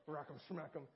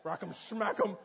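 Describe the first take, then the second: First: Softer muttered thought; he mutters it silently in his head while his minister watches; inner grumble. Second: Mock anger. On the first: Retold or imitated. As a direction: grumble it under your breath. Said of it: "in my head, I'm thinking". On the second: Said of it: "and I'm like".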